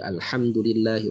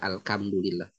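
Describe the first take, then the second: First: The consonant after Al is a soft breathy h. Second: The consonant after Al is a harsh k-like sound. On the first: The speaker calls it right. "ha dibaca" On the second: The speaker calls it wrong. "Jadi jangan dibaca Alhamdulillah"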